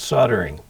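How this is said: The L in the word is silent. "In the U S it's soldering"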